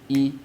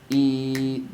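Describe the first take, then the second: First: The vowel is short, one beat. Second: The vowel is long, two beats.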